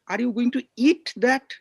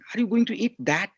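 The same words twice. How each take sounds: First: The stress is on "eat". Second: The stress is on "that".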